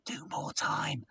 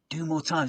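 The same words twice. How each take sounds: First: Stage whisper, voice dropped right down; whispered instruction. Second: Said in the usual way. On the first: Retold or imitated. Stage manager whispering to the compere, urgent hush. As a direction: hiss it across the stage, unseen. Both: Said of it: "shaking his head and going".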